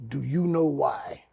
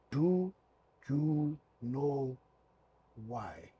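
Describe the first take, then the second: First: Said in the usual way. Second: Word by word, long pauses between; halting reading aloud. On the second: Retold or imitated. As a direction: sound out each English word, trailing softer. Ref slowly reads English shirt.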